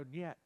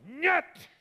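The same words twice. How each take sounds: First: NYET dropped very soft; quiet refusal. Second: Very high, excited burst on NYET; forceful nyet. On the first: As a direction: refuse Satan under your voice, calmly. Same refusal, said to Satan quietly. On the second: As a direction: throw out the Russian no with force. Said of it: "It has some force". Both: Shown as a demonstration.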